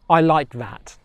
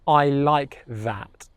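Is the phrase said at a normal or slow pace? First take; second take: normal; slow. First: The phrase is said at normal speed. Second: The phrase is said slowly and deliberately.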